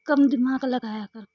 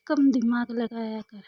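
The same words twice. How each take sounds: First: Loud, firm telling-off; first take, loud and firm; guru's loud advice. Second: Same advice, slower and drawn out; slowed-down second take; slow repeat. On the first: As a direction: scold her to think less. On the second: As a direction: repeat it slowly, leaning on कम. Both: Retold or imitated. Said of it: "गुरु जी कई बार तो कहते हैं".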